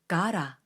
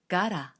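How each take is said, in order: The two takes are said the same way.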